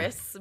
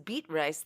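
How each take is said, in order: First: The name is said as one word, Beatrice. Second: The name is split into 'beet' and 'rice'. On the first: The speaker calls it right. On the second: The speaker calls it wrong.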